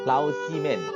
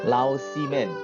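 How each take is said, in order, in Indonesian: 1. Suku kata tengah dimulai dengan bunyi s. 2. Suku kata tengah dimulai dengan bunyi s.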